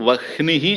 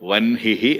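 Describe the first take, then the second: First: The h sound comes before the n. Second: The h sound comes after the n. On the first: This is how the word is written. "రాసేటప్పుడు వహ్నిహి అని రాయాలి" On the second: This is how the word is spoken. "పలికేటప్పుడు వన్హిహి అని పలకాలి"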